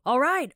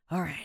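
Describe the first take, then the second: First: It is said in a sharp, irritated way. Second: It is said with a weary, breathy sigh. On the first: You are annoyed at being nagged. "有点不耐烦哦，就alright alright 的那种感觉" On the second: You are telling yourself to be strong. "有种喘气的那种感觉，你就是在跟你说你要坚强啦"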